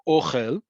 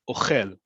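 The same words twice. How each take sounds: First: The stress is on the first syllable. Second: The stress is on the second syllable. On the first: It means food, a noun. "the emphasis on the first syllable" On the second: It means eats or is eating, a verb. "or is it on the second one"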